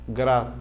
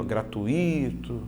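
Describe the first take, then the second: First: "gratuito" as three pieces, gra-TUI-to; correct syllable split. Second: "gratuito" slowly, as gra-tu-Í-to; stressed separate I. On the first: Teacher showing the right separation, correct diphthong. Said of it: "a separação é assim". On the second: Teacher pointing out the wrong I, common mispronunciation. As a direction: lengthen the I in "gratuito" as a hiatus. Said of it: "Esse I, ó". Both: Shown as a demonstration.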